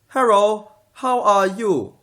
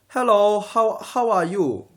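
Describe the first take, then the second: First: The L in hello sounds like an R. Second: The L in hello sounds like an L.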